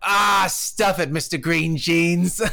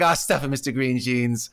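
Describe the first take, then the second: First: Gruff retort. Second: Said in the usual way. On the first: Retold or imitated. Old guy in his boat yelling at the Winnebago driver, slow mock shout. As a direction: bark the insult slowly like a grumpy old guy. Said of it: "And he goes". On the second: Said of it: "but to be like".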